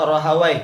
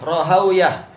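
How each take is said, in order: First: The name ends with a 'wai' sound. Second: The name ends with a 'wiyah' sound. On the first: "dua-duanya mungkin"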